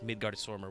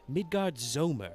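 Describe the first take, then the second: First: The R sound in the second word is pronounced. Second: The R sound in the second word is silent. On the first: This is how the written title reads. "reading it in the titles as Midgard Swarmer with an R" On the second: This is how the characters say it. "I guess it's a silent R"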